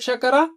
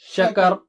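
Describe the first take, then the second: First: The word ends with a final 'a' vowel. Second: The word ends on the consonant 'r'. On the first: The reading continues on. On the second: The reader stops at this word.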